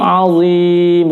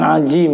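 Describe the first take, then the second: First: The middle consonant is a heavy emphatic sound. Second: The middle consonant sounds like a j. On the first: The speaker calls it right. "huruf dha merupakan huruf isti'la" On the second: The speaker calls it wrong. "bukan ajim"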